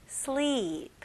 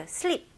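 First: "sleep" with a long, held "ee"; long correct version. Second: "sleep" with a short, quick vowel; short wrong version. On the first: Teacher correcting to English pronunciation, long "sleep". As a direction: stretch the "ee" in "sleep". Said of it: "이게 아니고 sleep". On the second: Teacher showing learners what to avoid, short "sleep". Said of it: "이게 아니고". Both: Shown as a demonstration.

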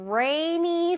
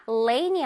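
First: "rainy" with an exaggerated, drawn-out R; English R in rainy. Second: "Rain이" wrongly said as "lainy". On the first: Teacher correcting lainy to rainy, strong R sound. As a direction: curl into the R at the start of "rainy". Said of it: "R이니까 rainy 소리 나야". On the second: Teacher contrasting the mistake with rainy, L sound. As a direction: put a clear L at the start of "Rain이". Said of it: "아니고 R이니까 rainy 소리 나야". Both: Shown as a demonstration.

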